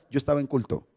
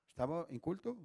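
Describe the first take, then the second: First: Said in the usual way. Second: Much softer, almost under the breath; quiet echo. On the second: Real, not acted. Pastor softly echoing to himself that he was in church. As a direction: let "Estaba en culto" fall away softly.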